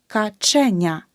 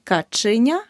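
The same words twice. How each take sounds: First: Каченя with a clear е after ч; correct vowel demo. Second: Каченя with и after ч; the mistake in каченя, и for е; wrong vowel demo. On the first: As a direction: say каченя as "ka-CHE-nia", punching che. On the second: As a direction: say каченя wrongly as "ka-chy-nia". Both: Shown as a demonstration. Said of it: "Не".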